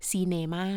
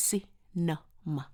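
First: Thai-style ซีเนมา, drawing out the middle "เน" as a full vowel; ซีเนมา as Thai speakers say it, every vowel full; Thai pronunciation. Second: Cinema slowly in separate syllables, si-nuh-muh; careful English cinema, broken into three short syllables; correct English pronunciation. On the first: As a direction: say ซีเนมา with long, even Thai syllables. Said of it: "คนไทยบอกว่า". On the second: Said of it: "จริงๆมันคือ". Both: Shown as a demonstration.

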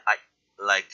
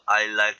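First: I chopped off, a beat of silence, then like; cut-off tail. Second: Said in the usual way. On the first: Shown as a demonstration. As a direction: cut the end of I short before saying like. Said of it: "꼬리 끊기는 냄새가 난다". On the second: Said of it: "I like 그냥".

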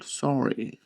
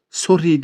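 First: "Sorry" with an open vowel, nearer "saw-ree"; softer "Sorry", the first vowel drawn open; English-style pronunciation. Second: "Sorry" with a rounded Turkish "o", as "sorri"; "Sorry" mispronounced with a round O; wrong pronunciation. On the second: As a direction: say "Sorry" just as spelt, with a full "o". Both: Shown as a demonstration. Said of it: "Sorry değil arkadaşlar".

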